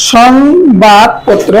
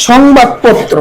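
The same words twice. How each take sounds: First: সংবাদপত্র very slow, "shong-bad-pot-tro"; syllable-by-syllable pronunciation. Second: Said in the usual way. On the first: Shown as a demonstration. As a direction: break সংবাদপত্র into drawn-out syllables. (সংবাদপত্র ভেঙে ভেঙে উচ্চারণ) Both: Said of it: "উচ্চারণ হবে".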